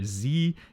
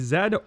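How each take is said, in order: First: The letter is said the American way, zee. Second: The letter is said the non-American way, zed.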